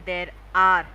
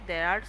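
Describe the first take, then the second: First: Both words are said separately and fully. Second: The two words are blended into one. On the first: "we don't have to try to pronounce them there is and there are ऐसे करके" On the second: "Their sounds will usually get mixed"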